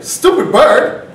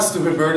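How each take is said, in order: First: Loud, high, slow echo of the insult; seagull taking exception. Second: Said in the usual way. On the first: Acted. Seagull answers the driver's insult, loud indignant echo. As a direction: throw STUPID BIRD back, drawn out and high. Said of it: "He's like". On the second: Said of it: "I'm like".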